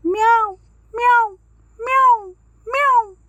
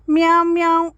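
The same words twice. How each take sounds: First: High, loud meow, meow, meow; big cat teaching kitten to say meow, high and loud. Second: Higher, louder mew; kitten meow. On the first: Shown as a demonstration. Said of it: "అనాలి అని నేర్పించింది". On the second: Acted. Kitten asking Sharada for milk, louder meow.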